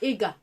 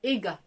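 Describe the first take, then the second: No difference in how they are said.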